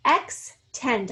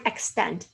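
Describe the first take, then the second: First: EXTEND split in two, "ex", pause, "tend"; syllable by syllable. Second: Said in the usual way. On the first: Shown as a demonstration. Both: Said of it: "say the word by syllables".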